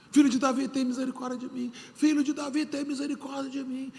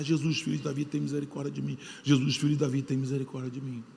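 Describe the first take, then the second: First: High, pleading cry to Jesus; crying out for mercy. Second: Lower, softer mock cry for mercy; a hushed, imitating plea; retold cry for mercy. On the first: Retold or imitated. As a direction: call out to him with raised pitch. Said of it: "Gritou, gritou, gritou, gritou". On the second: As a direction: blind man crying out, told quietly. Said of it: "E começa a gritar, gritar, gritar".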